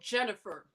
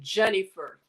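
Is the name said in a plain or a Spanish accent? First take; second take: plain; Spanish. First: It is said in the speaker's plain accent. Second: It is said in a Spanish accent.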